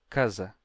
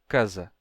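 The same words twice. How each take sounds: The two takes are said the same way.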